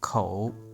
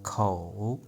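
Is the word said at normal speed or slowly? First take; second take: normal; slowly. First: The word is said at normal speed. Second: The word is said slowly and drawn out.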